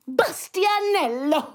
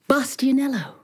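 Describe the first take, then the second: First: The name is said excitedly, with lots of energy. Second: The name is said calmly, with little energy. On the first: "She was so excited that she said" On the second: "But she didn't say it like that"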